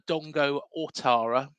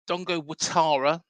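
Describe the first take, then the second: First: The surname begins with an 'o' sound. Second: The surname begins with a 'wa' sound. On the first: "it's actually spelled" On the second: "that's how it's pronounced"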